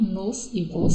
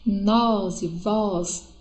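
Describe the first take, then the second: First: The vowels are closed and weakly stressed. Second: The vowels are open and strongly stressed. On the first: "é átono, é mais fraco, mais fechado" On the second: "mais aberto, eles são tônicos"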